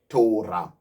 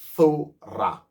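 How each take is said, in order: First: The word begins with a hard 't' sound. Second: The word begins with a soft 'th' sound. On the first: The speaker calls it wrong. "not Torah" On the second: The speaker calls it right. "Tha, Wa, Ra, Ha, Thora"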